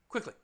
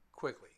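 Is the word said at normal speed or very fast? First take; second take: very fast; normal speed. First: The word is said very fast. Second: The word is said at an ordinary speed. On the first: "Now say the word quickly very quickly" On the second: "Say the word quickly at normal speed"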